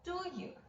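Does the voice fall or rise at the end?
fall. The voice falls at the end.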